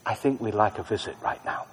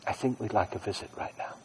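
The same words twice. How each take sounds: First: Soft murmured prayer; barely voiced plea; under my breath. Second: Even softer, almost whispered; fading whisper. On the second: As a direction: let it fade to a whisper. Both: Shown as a demonstration. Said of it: "I say under my breath".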